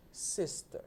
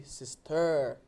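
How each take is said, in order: First: Sister with SIS strong and a short, weak ending; stress on SIS. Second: Sister with a long, loud final TER; wrong stress on TER. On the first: Teacher gives the correct model, sister stressed on SIS. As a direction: hit the first syllable of sister. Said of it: "ou di sister". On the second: Teacher shows how not to say it, sister stressed on TER. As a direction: lean hard on the ending of sister. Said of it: "Yo pa konn di sister". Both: Shown as a demonstration.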